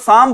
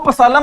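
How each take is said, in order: First: No 'p' sound is heard at the start. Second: A 'p' sound is heard at the start. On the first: The speaker calls it right. "Silent है, इसको साम बोलते हैं" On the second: The speaker calls it wrong. "इसको पसालम नहीं बोलेंगे"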